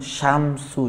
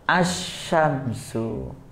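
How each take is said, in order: First: The word starts directly with the 'sh' sound. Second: The word starts with an 'a' vowel sound. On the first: The speaker calls it wrong. "jangan langsung syamsu" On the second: The speaker calls it right. "alif lamnya dibaca asyamsu"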